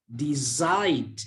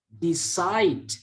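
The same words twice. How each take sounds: The two takes are said the same way.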